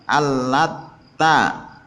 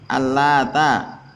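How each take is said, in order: First: The t sound is doubled and held. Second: The t sound is short and single. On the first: "bisa juga bitasdidiha" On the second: "taknya tidak ditasydid"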